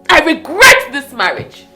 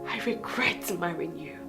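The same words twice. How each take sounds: First: Forceful punch on "regret"; bitter outburst. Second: Very low, soft confession; hushed regret. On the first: Wife declaring regret to her husband, bitterly forceful. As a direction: burst out, leaning hard on "regret". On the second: Wife telling husband she regrets marrying him, hushed. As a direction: murmur it in bitter regret. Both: Acted.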